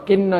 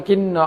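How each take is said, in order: The two takes are said the same way.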